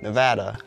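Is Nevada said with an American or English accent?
American. It is said with an American accent. "That sounds weird to say it for Nevada"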